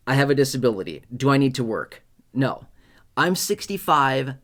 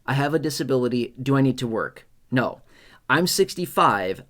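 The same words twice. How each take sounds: The two takes are said the same way.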